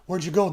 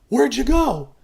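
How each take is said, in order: First: It is said at a normal conversational volume. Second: It is called out loudly, as if from afar. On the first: The other person is face to face. "just talking normally" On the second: The other person is far away. "he's calling"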